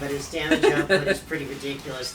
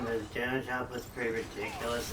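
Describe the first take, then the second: First: The pitch moves a lot, lively and expressive. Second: The pitch stays fairly level and flat. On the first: The speaker calls it wrong. "I said that with a little bit too much um, inflection" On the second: The speaker calls it right. "I think that was a little better"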